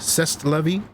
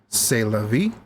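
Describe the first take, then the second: First: It is pronounced the English way, as spelled. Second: It is pronounced the French way. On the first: The speaker calls it wrong. "as an uneducated American, or at least unknowledgeable about French, would say" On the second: The speaker calls it right. "As they say"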